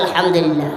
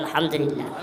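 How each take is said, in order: First: It is said more loudly. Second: It is said at normal volume.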